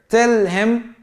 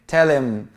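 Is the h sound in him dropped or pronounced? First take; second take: pronounced; dropped. First: The h sound in him is pronounced. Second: The h sound in him is left out.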